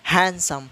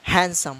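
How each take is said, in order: Both takes have the same delivery.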